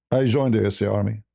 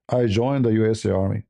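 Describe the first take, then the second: No difference in how they are said.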